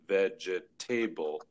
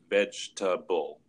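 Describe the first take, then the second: First: The word is said with four syllables. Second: The word is said with three syllables. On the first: The speaker calls it wrong. "a lot of learners will pronounce it with four syllables" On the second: The speaker calls it right. "it's a word with just three syllables"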